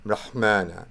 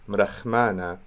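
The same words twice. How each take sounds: First: The middle consonant is a harsh throaty ch. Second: The middle consonant is a soft breathy h. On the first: This is a more scholarly, liturgical pronunciation. "a more nerdy way of saying it would be mrahmana" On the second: This is the preferred everyday pronunciation. "I would say mrahmana"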